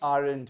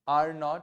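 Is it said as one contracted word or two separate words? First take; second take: contracted; two words. First: It is said as one contracted word. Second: It is said as two separate full words. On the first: "Very good" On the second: "what is are not together?"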